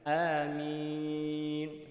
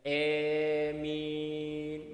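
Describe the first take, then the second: First: The first vowel is long and open. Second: The long first vowel leans toward e. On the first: The speaker calls it right. "hamzah itu baca panjang, dan membaca mim dengan bacaan yang ringan" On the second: The speaker calls it wrong. "dengan memanjangkan huruf hamzah tetapi membacanya dengan imalah"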